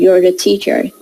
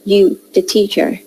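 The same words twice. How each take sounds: First: Said in the usual way. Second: "You" without the r of "You're"; zero copula. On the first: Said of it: "So instead of saying". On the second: Shown as a demonstration. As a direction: say a bare "You" straight before "the teacher". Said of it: "they say".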